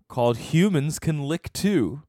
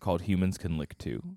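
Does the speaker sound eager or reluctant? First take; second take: eager; reluctant. First: The speaker sounds willing, not reluctant. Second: The speaker sounds hesitant and reluctant. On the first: The speaker calls it wrong. "You don't sound reluctant enough" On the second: The speaker calls it right. "That's much better"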